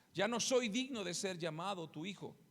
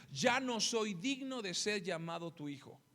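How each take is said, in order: The two takes are said the same way.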